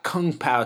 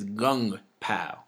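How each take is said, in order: First: The first word begins with a K sound. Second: The first word begins with a G sound. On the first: The speaker calls it wrong. "it's not Kung Pao chicken" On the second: The speaker calls it right. "You pronounce the K's with the G"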